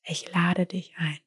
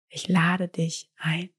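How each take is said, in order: First: Slow whisper, lade drawn out; whispered invitation. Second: Voiced, slow, lade rising; a gentle spoken invitation; soft invitation. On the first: Whispering the invitation again, slower. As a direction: breathe the words as a secret. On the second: Speaker softly inviting the gift before whispering it. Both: Shown as a demonstration.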